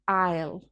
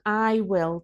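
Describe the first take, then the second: First: The words are contracted into one syllable. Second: Both words are said fully and separately. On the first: "to I'll" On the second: "We usually shorten I will"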